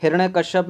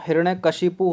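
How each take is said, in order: First: हिरण्यकश्यप ending in -kashyap; wrong name ending. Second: हिरण्यकशिपु ending in -kashipu; correct name ending. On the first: Teacher flagging a blunder, हिरण्यकश्यप with -kashyap. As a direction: close हिरण्यकश्यप on yap. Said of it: "में blunder कर दिया". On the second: Teacher giving the correct name, हिरण्यकशिपु with -kashipu. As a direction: finish हिरण्यकशिपु on shi-pu. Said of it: "हिरण्यकशिपु होता है". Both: Shown as a demonstration.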